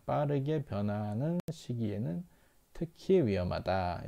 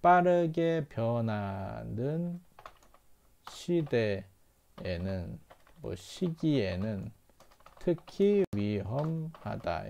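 First: Said in the usual way. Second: Slow, deliberate model reading; teacher reading it slowly for students; slow model translation. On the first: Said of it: "이렇게 읽으면 되겠죠". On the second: Shown as a demonstration. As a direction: lay out the translation piece by piece, slowly. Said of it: "이렇게 읽으시면 됩니다".

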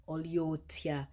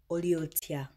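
First: "Oliotia" said slowly, each syllable laid out; slow "Oliotia" for viewers to repeat; slow Luganda demo. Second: "Oliotia" said clearly as a Luganda hello; Luganda greeting. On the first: Teacher modelling "Oliotia" slowly for viewers to repeat. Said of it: "Okay, repeat after me". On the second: Teaching viewers the Luganda hello, clearly. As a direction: pronounce "Oliotia" carefully for learners. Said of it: "How do you say hello in Luganda?". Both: Shown as a demonstration.

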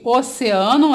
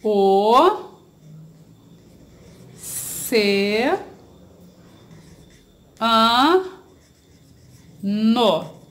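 First: Said in the usual way. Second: OCEANO split into O, CE, A, NO with long pauses; syllable by syllable. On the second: Shown as a demonstration. Teacher separating a word for pupils, syllable by syllable. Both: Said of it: "separar as sílabas dessa palavra".

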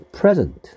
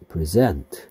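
First: "present" with PRE hit high and loud, meaning gift; stress on the first syllable. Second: "present" with a low first syllable and the weight on SENT, verb form; stress on the second syllable. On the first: Teacher contrasting noun and verb for students, first syllable stressed. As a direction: lift and punch the PRE of "present", then drop. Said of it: "선물". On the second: Teacher contrasting verb with noun for students, second syllable stressed. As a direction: keep PRE low and lean on SENT in "present". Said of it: "주다, 수여하다". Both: Shown as a demonstration.

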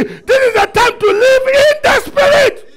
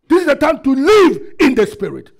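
First: Very high, full-force preaching scream; shouted like you mean it. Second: Loud, raised-pitch call to the congregation; forceful pulpit declaration, short of a scream; preached declaration. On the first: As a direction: scream the declaration with total conviction. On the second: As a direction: proclaim it firmly for them to repeat. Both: Shown as a demonstration. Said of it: "You are not saying as if you mean it".

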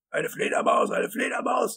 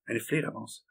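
First: Loud, high-pitched raving; tobend. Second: Said in the usual way. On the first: A narrator's reading. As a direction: rant in outraged disbelief, voice leaping high. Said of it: "tobte Wisconski". (hoch und laut tobend) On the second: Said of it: "sagte Hal".

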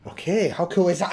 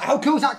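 First: Said in the usual way. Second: Higher, delighted question; excited. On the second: Real, not acted. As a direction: lift it with delight. Repeats the phrase excitedly.

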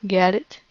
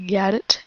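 The two takes are said the same way.

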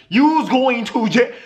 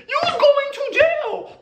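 First: Slowed, laughing shout; laughing, shouted jail verdict. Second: Much higher, slowed squeal with a laugh; high, laughing squeal of jail; squealed verdict. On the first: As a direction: deliver the sentence while cracking up. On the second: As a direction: shriek the sentence in delight. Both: Real, not acted. Verdict on the sixteen-year-old.

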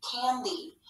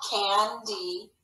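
First: Said in the usual way. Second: CANDY in two drawn-out beats, CAN then DEE; split into syllables. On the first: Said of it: "let's read it together". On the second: Shown as a demonstration. Teacher scooping the word into syllables, sounded out in parts. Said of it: "scoop this word into syllables".

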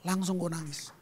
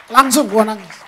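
First: Said in the usual way. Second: Loud cry of emotion. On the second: Shown as a demonstration. Preacher to congregation, reliving his tears with a loud cry. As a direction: shout "Langsung gua nangis" with full force.

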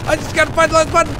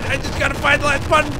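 First: Rushed, even louder panic; scared horror game streamer. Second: High panicked pleading; frantic, loud, higher voice; scared horror game streamer. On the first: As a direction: gabble it out in fast panic. Chased, repeats line faster. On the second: Chased, repeats line. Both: Real, not acted.

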